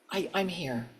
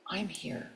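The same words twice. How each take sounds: First: Softly breathed "I'm here"; quiet affirmation. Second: Much softer "I'm here", barely voiced; near-silent echo. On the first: Acted. Signal to the divine on exhale. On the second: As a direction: let "I'm here" fade almost to nothing. Echoed, fading affirmation.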